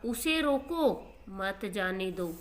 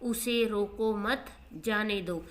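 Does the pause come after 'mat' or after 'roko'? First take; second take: after roko; after mat. First: The pause comes right after 'roko'. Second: The pause comes right after 'mat'. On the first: Stop him; do not let him go. "यहाँ वो क्या कहना चाह रहा है कि उसे रोक लो" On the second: Do not stop him; let him go. "मैंने जो मेरा अलग विराम है वो एक वर्ड से आगे कर दिया"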